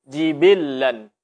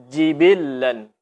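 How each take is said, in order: Both takes have the same delivery.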